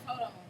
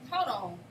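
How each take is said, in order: First: It is said in a calm, neutral tone. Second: It is said in a sharp, aggressive tone. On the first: A harmless request to wait. "I'm like, all right, cool" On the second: The speaker is confronting the listener. "you you coming at me like that"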